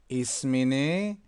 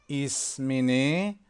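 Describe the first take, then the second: Both takes have the same delivery.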